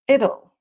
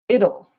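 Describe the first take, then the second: First: The words are squeezed into one short contraction. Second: The words are squeezed into one short contraction.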